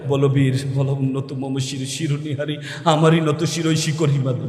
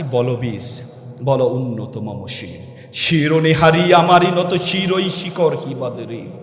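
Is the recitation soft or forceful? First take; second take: soft; forceful. First: It is recited softly, without heroic force. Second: It is recited forcefully, in a heroic manner.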